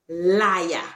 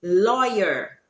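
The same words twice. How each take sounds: First: "liar" said as lah-ya, for lawyer; Creolese pronunciation. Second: Said in the usual way. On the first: Shown as a demonstration. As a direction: end "liar" on an open A, no R. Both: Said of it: "replacing the E R with".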